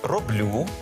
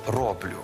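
First: It has the standard literary stress. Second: It has the western Ukrainian dialect stress. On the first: The speaker calls it right. "Правильно сказати" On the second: The speaker calls it wrong. "Це наголоси такі, ознака західноукраїнських діалектів"

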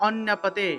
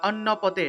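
No difference in how they are said.

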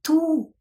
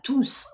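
First: The final s sound is silent. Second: The final s sound is pronounced. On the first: The word describes the noun that follows. "коли ту с не читається, і коли воно аджектив" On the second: The word stands alone for everyone. "коли есочка читається, коли слово tous є pronom"

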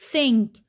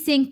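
First: The word begins with a th sound. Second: The word begins with an s sound. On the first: The speaker calls it right. "التي اتش هنا بننطقها ث" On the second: The speaker calls it wrong. "لا دي مش sink"

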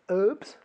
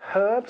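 First: The word begins with a silent h. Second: The word begins with a pronounced h sound.

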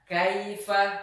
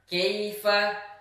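First: The first vowel is a full open 'a'. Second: The first vowel is a narrower 'e'. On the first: The speaker calls it right. "Misalnya ketika membaca" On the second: The speaker calls it wrong. "tidak sempurna membaca huruf yang berharokat fathah"

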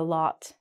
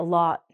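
First: The final T is clearly pronounced. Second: The final T is cut off and not released. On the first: The speaker calls it wrong. "not a lot" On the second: The speaker calls it right. "is called a lot"

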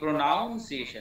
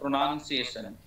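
First: The second syllable sounds like 'noun'. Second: The second syllable sounds like 'nun'. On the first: The speaker calls it wrong. "না ভুল" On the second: The speaker calls it right. "উচ্চারণটা হচ্ছে প্রোনাউন্সিয়েশন, PRONUNCIATION"

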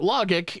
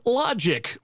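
First: The G is hard, like in 'go'. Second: The G is soft, like a J.

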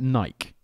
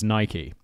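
First: The brand name is said the British way. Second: The brand name is said the American way. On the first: The speaker calls it wrong. "in the UK, we call it Nike" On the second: The speaker calls it right. "everyone has a go at me being like, [name], it's Nike"

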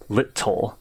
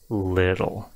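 First: The middle T is hard and clearly separated. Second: The middle T is a soft D-like tap. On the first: The speaker calls it wrong. "I'm not saying bottle, little. It's not overly segmented in that way" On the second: The speaker calls it right. "You make it really soft"

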